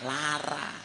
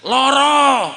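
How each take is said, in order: First: Its vowels are A sounds, Ngapak style. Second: Its vowels are O sounds, Jogja style.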